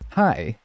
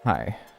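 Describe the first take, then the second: First: The greeting sounds lighthearted and welcoming. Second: The greeting sounds overbearing.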